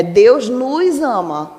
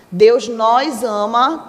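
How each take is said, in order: First: Unstressed "nos", closed vowel close to "nus"; "nos" átono. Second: "nós" tônico, com O aberto; "nós" acentuado. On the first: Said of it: "a pronúncia dele é mais branda". ("nos" átono, de vogal fechada) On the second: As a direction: say "nós" as a stressed word with an open O, slowly. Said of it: "Se você acentua". ("nós" forte, de vogal aberta) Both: Shown as a demonstration.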